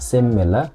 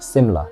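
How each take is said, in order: First: Every sound in the word is pronounced. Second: One sound in the word is dropped. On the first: The speaker calls it wrong. "bukan similar" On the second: The speaker calls it right. "menghilangkan satu suara"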